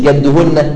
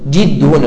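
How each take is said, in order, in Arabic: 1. الحركة الأولى فتحة. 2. الحركة الأولى كسرة. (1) "مش جدهن" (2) "شوف اقرأها كويس"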